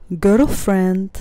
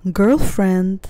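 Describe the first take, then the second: No difference in how they are said.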